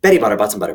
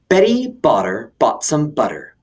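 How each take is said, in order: First: It is said extremely fast. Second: It is said at a normal speed.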